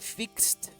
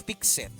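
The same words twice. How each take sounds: First: The ending is a plain t sound. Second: The ending is an extra syllable. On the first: The speaker calls it right. "quiero que notes que pronuncié fixed" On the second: The speaker calls it wrong. "y no fixed"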